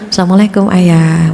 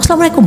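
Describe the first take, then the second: First: The greeting is said warmly and pleasantly. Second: The greeting is said angrily.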